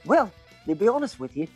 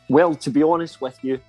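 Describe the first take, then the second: First: It is said in an Australian accent. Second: It is said in the speaker's usual accent.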